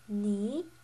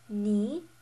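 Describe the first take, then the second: The two takes are said the same way.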